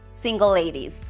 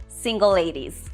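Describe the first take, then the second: The two takes are said the same way.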